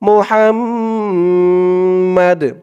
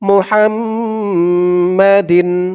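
First: The word ends with a bare 'd' sound. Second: The word ends with a '-din' sound. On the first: The reader stops at this word. "এখানে থামার কারণে দালের নিচে দুই জের সাকিন হয়ে যাবে" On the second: The reading continues without stopping. "দাল দুই জের দিন"

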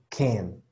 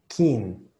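First: The vowel sounds like an 'e'. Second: The vowel sounds like a clear 'i'. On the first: The speaker calls it right. "Tiene que ser ken. Acuérdate que es una E" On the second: The speaker calls it wrong. "mucho como kin"

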